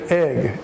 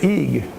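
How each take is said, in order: First: The vowel is a short e sound. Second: The vowel is a long e sound. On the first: The speaker calls it right. "We say egg. It's a short e" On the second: The speaker calls it wrong. "If we pronounce it with a long e, we would say eeg, but we don't say that"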